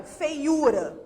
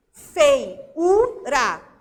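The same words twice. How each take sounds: First: Said in the usual way. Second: "Feiura" slowly split as fei, u, ra; syllable by syllable. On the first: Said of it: "por exemplo". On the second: Shown as a demonstration. Teacher showing students the lone U, "Feiura" split into syllables. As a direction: say "Feiura" broken into syllables, U standing alone. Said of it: "o U tá sozinho aqui na sílaba".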